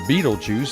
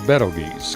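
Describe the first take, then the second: First: It sounds like the film title. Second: It does not sound like the film title. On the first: The speaker calls it wrong. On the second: The speaker calls it right.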